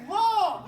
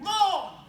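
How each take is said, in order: First: LAW with the tongue pushed out over the teeth; loud, high LAW, tongue tip past the gate. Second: LAW with the tongue stopped at the top of the bottom teeth; loud, high LAW, tongue held behind the gate; tongue not over teeth. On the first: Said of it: "when you go over, you say". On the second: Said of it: "You're not going over". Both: Shown as a demonstration.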